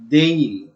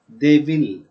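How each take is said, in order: First: The words are merged into one short syllable. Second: Both words are said fully and separately. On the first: "contrasted form, and its pronunciation" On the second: "Full form"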